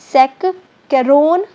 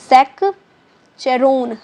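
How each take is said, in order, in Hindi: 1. बीच का व्यंजन k की आवाज़ है। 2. बीच का व्यंजन ch की आवाज़ है। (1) "यहाँ कैरोन बोलेंगे, क बोलेंगे" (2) "हम लोग चेरोन बोल जाते हैं"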